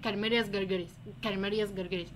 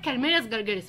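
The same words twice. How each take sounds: First: Quiet repeating to oneself. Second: Said in the usual way. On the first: Shown as a demonstration. Student drilling a hard worm name alone, softly murmured. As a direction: repeat the worm name under your breath, lower and softer. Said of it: "انت هتقعد تكرر اسم الدوده". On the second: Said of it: "فانت تقعد تقول ايه".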